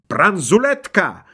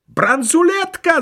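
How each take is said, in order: First: Higher, drawn-out exclamation; mild, slow squeal of discovery; officer's squeal. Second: Very high, drawn-out yell; piercingly high, stretched-out cry; crowd's cry. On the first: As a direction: squeal the word like an excited border officer. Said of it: "взвизгнул погранофицер". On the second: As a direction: shriek it like guards pouncing on a find. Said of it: "закричали остальные". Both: A narrator's reading.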